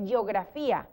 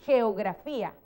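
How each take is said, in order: First: Geografía with a Y sound at the start, like yeografía; the sloppy version of geografía; wrong geografía. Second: Geografía with a rough Spanish J sound at the start, slightly slow; the proper geografía, throaty G; correct geografía. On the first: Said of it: "tú dices geografía". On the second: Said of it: "tú no dices geografía". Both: Shown as a demonstration.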